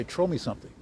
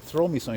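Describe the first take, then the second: First: "Throw" said as "trow", with a plain t; dad's pronunciation. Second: Said in the usual way. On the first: Retold or imitated. Imitating dad's way of talking, "Throw" becomes "trow". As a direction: turn the th of "Throw" into a hard t. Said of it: "That's how he talked". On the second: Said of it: "he wouldn't say".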